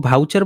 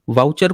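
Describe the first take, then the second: First: The word begins with a 'bh' sound. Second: The word begins with a 'v' sound. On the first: "भाउचर बोला जाता है" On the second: "व का उच्चारण"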